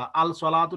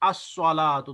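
First: The 'l' is pronounced before the 's'. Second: The 'l' merges into a doubled 's'. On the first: The speaker calls it wrong. "अल सलातु नहीं पढ़ा" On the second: The speaker calls it right. "बल्कि अस्सलातु"

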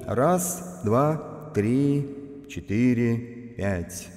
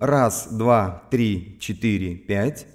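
First: The voice has a large hall reverb. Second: The voice has a small room reverb. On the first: "И в финале всего FX-обзора слушаем Hall" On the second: "Теперь Reverb. Слушаем Room"

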